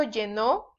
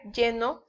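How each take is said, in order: First: Llenó stressed on the final syllable, lle-NÓ; lle-NÓ, past-tense stress; stress on last syllable. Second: Lleno stressed LLE-no; LLE-no, weight on the first syllable. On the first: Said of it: "cuando lleva acento". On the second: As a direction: say lleno with an unstressed final o. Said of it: "sin acento". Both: Shown as a demonstration.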